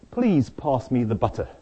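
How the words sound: It is said in a British accent.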